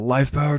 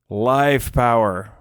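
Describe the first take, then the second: First: The L and F sounds are said normally. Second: The L and F sounds are strongly exaggerated. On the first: "it's not like you know" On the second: "I would stress the L and the F as much as I could"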